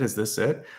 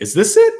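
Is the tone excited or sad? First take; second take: sad; excited. First: It is said in a sad, deflated tone. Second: It is said in an excited, energetic tone. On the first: Nothing more is left. The speaker calls it wrong. "Instead of kind of being sad about it" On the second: More possibilities may be coming. The speaker calls it right. "change the tone, change the energy, get excited"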